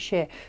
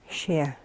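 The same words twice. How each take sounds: First: It is said quickly with a weak final R. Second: It is said carefully with a clear final R. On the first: The speaker calls it wrong. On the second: The speaker calls it right.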